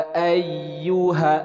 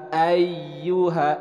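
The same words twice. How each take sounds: The two takes are said the same way.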